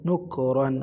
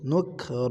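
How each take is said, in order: First: The word ends with an added n sound. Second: The word ends on a plain vowel without n. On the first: The reader continues without stopping. "তানবিন পড়লে" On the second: The reader stops at this word. "যদি এখানে যদি অক্ফ করেন"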